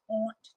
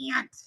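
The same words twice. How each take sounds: First: The word does not sound like 'ant'. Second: The word sounds like the insect 'ant'. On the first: The speaker never says it this way. "I don't say aunt. Aunt. I never said it that way" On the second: This is how the speaker normally says it. "Those are my Buffalo accent. Aunt. Like antsy lady"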